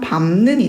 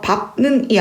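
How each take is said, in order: First: The first syllable ends with an m sound. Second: The first syllable ends with a p sound. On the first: The speaker calls it right. "비음화가 일어난 밟는이 돼야 되겠죠" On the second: The speaker calls it wrong. "밟는이 아니라"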